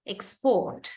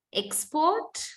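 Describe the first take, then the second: First: "export" stressed on PORT, falling; verb stress on second syllable. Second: "Export" stressed on EX, high and rising; noun stress on first syllable. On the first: Teacher reads the verb of the pair, second-syllable stress on "export". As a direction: lean on PORT in "export" and drop. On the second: Teacher reads the noun of the pair, first-syllable stress on "Export". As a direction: hit EX in "Export", lift the ending. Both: Shown as a demonstration. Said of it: "find the syllable which is stressed".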